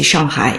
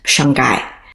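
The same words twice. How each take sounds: First: The h sound in the last syllable is heard. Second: The h sound in the last syllable is silent.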